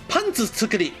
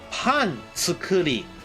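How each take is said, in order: First: The phrase is said very fast, words run together. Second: The phrase is said slowly, words kept apart. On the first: It sounds like the word for panties. "if I say it very fast" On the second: It means making bread. "if I say pan tsukuri"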